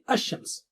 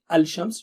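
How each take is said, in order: First: The l is dropped and sh is doubled. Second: The l is pronounced before the sh. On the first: The speaker calls it right. "we say Ash-Shams" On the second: The speaker calls it wrong. "So you don't say Al-Shams"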